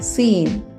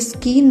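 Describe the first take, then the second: First: No k sound follows the s. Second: A k sound follows the s. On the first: The speaker calls it right. "सी इसमें silent रहेगा तो इसे स्कीन नहीं सीन बोलेंगे" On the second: The speaker calls it wrong. "ये स्कीन नहीं है"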